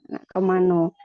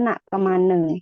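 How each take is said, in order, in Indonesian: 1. Kata terakhir berakhir dengan bunyi 'o'. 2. Kata terakhir berakhir dengan bunyi 'e'. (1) "kalau bahasa Jambi mau kemana, nah itu nak kemano" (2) "yang Semenanjung Malaka seperti daerah Riau, Pekanbaru itu nak kemana ... diganti E"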